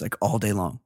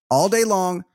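First: Said in the usual way. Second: All day long said much higher, each word stressed; emphatic repeat. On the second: Real, not acted. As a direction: raise the pitch and punch day in All day long.

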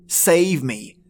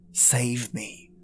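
First: Said in the usual way. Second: Softer, dying-away save me; fading plea. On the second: Acted. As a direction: let the plea sink to a near-whisper of despair. Plea fading after prayer.

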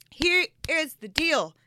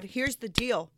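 First: "Here is the deal" slowly, every word set apart; slow emphatic. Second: Said in the usual way. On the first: Retold or imitated. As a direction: stretch out "Here is the deal" with higher, deliberate weight. Repeats it emphatically to God.

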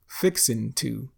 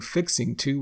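First: "fixin'" ending in n, full "to"; dropped G. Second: Said in the usual way. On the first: Shown as a demonstration. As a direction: drop the g in "fixin'". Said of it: "we say". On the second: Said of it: "instead of saying fixing to".

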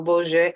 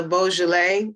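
First: "Beaujolais" shortened to two syllables, boh-ZHAY; "Beaujolais" tried out as boh-zhay; unsure pronunciation. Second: "Beaujolais" in three syllables, boh-zhuh-LAY; "Beaujolais" tried out with the L pronounced; full pronunciation. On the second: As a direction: say "Beaujolais" with the middle "luh-lay" sounded out. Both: Shown as a demonstration. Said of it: "don't really know how to pronounce that".

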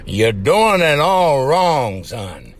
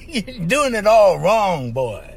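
First: Slow, drawn-out lecturing drawl; lightly voiced cartoon scolding, slow; mild cartoon drawl, son dropped low; cartoon rooster quote. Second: Slow, laughing cartoon drawl; half-laughing through the cartoon line, slow; cartoon rooster quote. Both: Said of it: "that cartoon cracked me up".

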